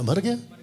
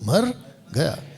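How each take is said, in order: First: The two words run together without a pause. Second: The two words are split by a pause. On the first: He died. "बोला मर गया" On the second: He went away somewhere. "तोड़ो शब्द को, तोड़ो"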